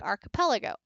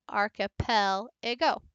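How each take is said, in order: First: Said in the usual way. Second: Archipelago slowly, arch-i-PEL-a-go in separate beats; slow, spelled-out archipelago; syllable-by-syllable stress demo. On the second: Shown as a demonstration. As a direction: break archipelago apart, setting off PEL. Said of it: "I dropped".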